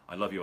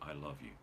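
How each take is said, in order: First: It is said quickly, rushed and repeated. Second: It is said slowly and calmly.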